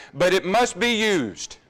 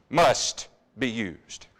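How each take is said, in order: First: Must punched, slower; firm, slowed must; stress on must. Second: Must be used dragged out low; slow echo of must. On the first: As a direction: press down on must. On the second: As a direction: drag Must be used very slowly. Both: Shown as a demonstration.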